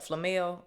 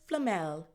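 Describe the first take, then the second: First: It is said in the speaker's everyday accent. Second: It is said in a put-on British accent. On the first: The speaker calls it wrong. "the way my regular accent is set up" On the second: The speaker calls it right. "You damn near gotta say it in their accent"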